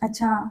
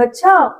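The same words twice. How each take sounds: First: It is said flatly, with little interest. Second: It is said with lively, surprised interest. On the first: The listener is not really interested. The speaker calls it wrong. "इतना normal सा आप अंदाज़ दे रही हैं" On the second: The listener is fully engaged and amazed. The speaker calls it right. "दिलचस्पी लें और उसकी बात पे आप हैरान हो"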